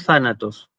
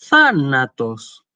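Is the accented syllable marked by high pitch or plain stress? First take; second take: plain stress; high pitch. First: The accented syllable has ordinary stress, no pitch jump. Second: Pitch rises on the accented syllable, then falls. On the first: "la estoy leyendo normalmente como, incluso como lo pronunciaría un griego de hoy" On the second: "el tono se elevaba y volvía, digamos, a bajar en la sílaba siguiente"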